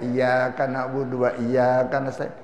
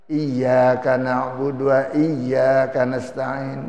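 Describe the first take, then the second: First: The doubled consonants are shortened to single ones. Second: The doubled consonants are held long and clear.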